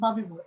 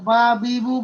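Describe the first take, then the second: First: The vowels are short and run quickly together. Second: The vowels are drawn out and slow. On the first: The speaker calls it right. "একের দ্রুত, fast" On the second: The speaker calls it wrong. "ওখানে হাফ আলিফ টান হয়ে যাচ্ছে, কিন্তু এটা হবে না"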